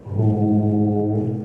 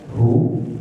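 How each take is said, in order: First: The vowel is held for two beats. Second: The vowel is held for one short beat. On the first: "Ada yang dibaca dua harokat, ini ada waw kecilnya hu" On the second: "Ada yang dibaca satu harokat hu"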